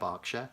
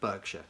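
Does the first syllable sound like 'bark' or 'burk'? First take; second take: bark; burk. First: The first syllable sounds like 'bark'. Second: The first syllable sounds like 'burk'. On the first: It names the English county as locals say it. "I live on the border of Berkshire or near Berkshire" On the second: It is how Americans say it. "in America they pronounce it Berkshire"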